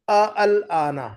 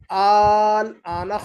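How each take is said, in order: First: The opening 'a' and 'al' are said separately. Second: The opening vowels merge into one long 'aal'. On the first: The speaker calls it wrong. "यूं नहीं कहेंगे" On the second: The speaker calls it right. "बल्कि यूं कहेंगे"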